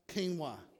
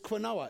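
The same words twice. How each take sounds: First: The word begins with a plain 'k' sound. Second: The word begins with a 'kw' sound. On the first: "pronounced quinoa?" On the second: "It's qu, isn't it?"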